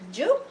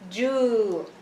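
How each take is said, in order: First: The vowel is short and clipped. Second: The vowel is held for twice as long. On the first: "instead of uh, saying ju" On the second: "it's going to be what? Ju, two haraka"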